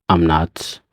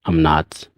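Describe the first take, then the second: No difference in how they are said.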